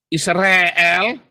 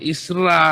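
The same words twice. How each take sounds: First: Israel said as 'Is-re-el', with e in the middle; higher, rising Israel with an e vowel; questioned misreading. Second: Isra with a long open a at the end; correct reading. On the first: Teacher questions a misreading, demonstrating Israel as 'Isre-el'. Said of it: "Apakah ini bacanya". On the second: Teacher corrects the vowel, demonstrating long-a Isra. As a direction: stretch the 'ra' of Isra on an a vowel. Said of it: "Kan bukan Israel bacanya". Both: Shown as a demonstration.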